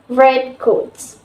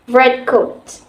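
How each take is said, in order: First: The stress falls on the second word. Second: The stress falls on the first word. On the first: It is a phrase of two separate words. "In a noun phrase, the second word is stressed" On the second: It is a single compound word. "In a compound, the first word is usually stressed"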